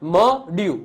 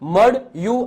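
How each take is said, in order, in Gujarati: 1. પહેલો સિલેબલ હલકો અને ભાર વગરનો છે. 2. પહેલો સિલેબલ ભારવાળો અને બંધ છે. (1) "મ અલગ બોલાય છે અને ડ્યુ અલગ બોલાય છે એટલે કે થડકો લાગતો નથી" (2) "આવું નથી બોલતા"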